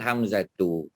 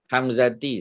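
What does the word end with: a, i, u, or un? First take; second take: u; i. First: The word ends with the sound u. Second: The word ends with the sound i. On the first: The speaker calls it right. "Yang betul" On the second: The speaker calls it wrong.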